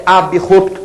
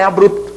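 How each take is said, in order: First: Abrupto with a vowel after b, a-bi-rup-to; correct pronunciation. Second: Abrupto with b and r run together, a-brup-to; wrong pronunciation. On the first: Teacher showing the right form, a-bi-rup-to. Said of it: "A pronúncia é abrupto". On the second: Teacher showing the wrong form, a-brup-to. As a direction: say abrupto with the cluster bru. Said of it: "A pronúncia não é abrupto". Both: Shown as a demonstration.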